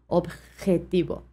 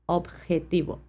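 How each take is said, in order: First: The j is a strong, harsh throaty sound. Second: The j is a strong, harsh throaty sound.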